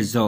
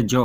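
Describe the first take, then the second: First: ज़ौ with a buzzing z, not j; z with nukta. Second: जौ with a plain j as in jam; the wrong way, जौ with j. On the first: Teacher contrasting ज़ौ with जौ for students, clear z. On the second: Teacher showing the j sound students must avoid, plain. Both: Shown as a demonstration. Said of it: "न तो जौ हो जाएगा".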